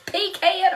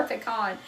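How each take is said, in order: First: "Pecan" as PEE-can; higher-pitched PEE-can for "Pecan"; pronunciation variant. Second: "pecan" as puh-KAHN; "pecan" ending in a long "ah" vowel; alternative pronunciation. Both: Shown as a demonstration. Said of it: "how we all pronounce things".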